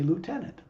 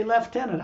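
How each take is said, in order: First: Lieutenant said as "loo-tenant"; American "loo-tenant" for lieutenant; American pronunciation. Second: Lieutenant said as "lef-tenant"; British "leftenant" for lieutenant; British pronunciation. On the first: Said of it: "like the name lieutenant". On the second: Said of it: "The British narrator would say". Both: Retold or imitated.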